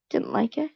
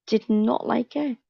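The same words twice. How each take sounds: First: Said in the usual way. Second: Slower, every word spaced, "not" pressed hard; stress on not. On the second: Shown as a demonstration. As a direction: spell out "Did not like it" firmly.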